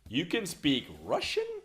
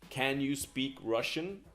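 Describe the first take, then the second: First: It sounds surprised and confused. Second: It is a neutral, genuine question.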